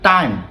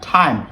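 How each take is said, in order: First: The t has no puff of air. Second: The t has a puff of air. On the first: The speaker calls it wrong. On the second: The speaker calls it right.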